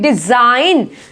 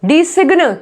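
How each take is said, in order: First: The g is silent before the n. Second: The g is sounded before the n. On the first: The speaker calls it right. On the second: The speaker calls it wrong.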